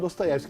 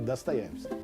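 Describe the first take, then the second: First: The first vowel sounds like O. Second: The first vowel sounds like A. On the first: The speaker calls it wrong. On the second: The speaker calls it right.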